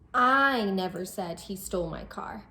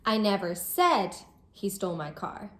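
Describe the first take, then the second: First: The word "I" carries the main stress. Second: The word "said" carries the main stress. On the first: Someone else said it. "we might be expressing that it wasn't me who said it, it was someone else" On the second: It was hinted or thought, not said. "I might be expressing that I didn't say he did this, but I might have hinted at it or thought it"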